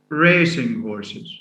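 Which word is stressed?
racing. The stress falls on the first word. They are horses bred for racing. "B means خيول سباق"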